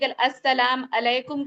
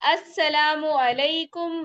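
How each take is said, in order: First: 'Salam' runs into 'alaikum' with no 'u'. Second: A 'u' vowel links 'salam' to 'alaikum'. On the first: The speaker calls it wrong. "आप लोग गलतियां करते हैं" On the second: The speaker calls it right. "ये है सलाम का सही तरीका"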